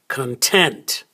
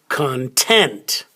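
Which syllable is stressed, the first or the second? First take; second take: second; second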